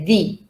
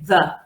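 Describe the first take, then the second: First: The word ends in a long ee vowel. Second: The word ends in a short schwa vowel. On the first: "use the E and say the" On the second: "use the schwa and say the"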